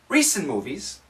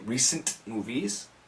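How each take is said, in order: First: The T at the end of recent is dropped. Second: The T at the end of recent is pronounced. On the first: The speaker calls it right. "Get rid of the T" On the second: The speaker calls it wrong. "you don't need to say recent movies"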